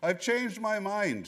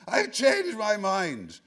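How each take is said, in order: First: It is said in a fairly calm, plain tone. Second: It is screamed in a loud, panicked voice. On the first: The speaker calls it wrong. "No, that's wrong. I'm getting the tone wrong" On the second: The speaker calls it right. "It was more like, screamed Carl screamingly from his screaming face"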